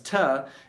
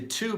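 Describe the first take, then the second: First: The vowel is weak and reduced. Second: The vowel is full and clear. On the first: "becomes to" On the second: "the to"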